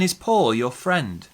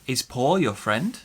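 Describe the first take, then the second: First: The voice falls at the end. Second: The voice rises at the end. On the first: It is not a real question but shows surprise. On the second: It is a real yes or no question.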